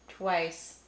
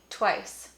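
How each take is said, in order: First: The W is fully voiced after the T. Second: The W is breathy and devoiced after the T. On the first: The speaker calls it wrong. "But I'm not saying tw, twice" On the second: The speaker calls it right. "I'm saying twice. There's this kind of extra aspiration around the W"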